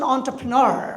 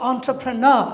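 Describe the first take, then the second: First: It is said in an American accent. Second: It is said in a British accent. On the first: "American হচ্ছেন" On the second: "British উচ্চারণটা ... লাস্টে জোর হবে"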